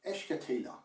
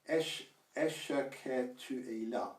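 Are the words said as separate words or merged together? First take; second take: merged; separate. First: The words run together quickly as one word. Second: Each word is said separately and fully. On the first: "when you say it quickly, it essentially merges into one word" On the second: "instead of saying"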